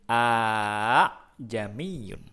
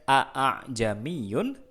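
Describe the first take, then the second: First: The second glottal stop is softened and lengthened. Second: The second glottal stop is pronounced fully. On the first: The speaker calls it right. "tapi kita bacanya" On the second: The speaker calls it wrong. "Kita bacanya tidak"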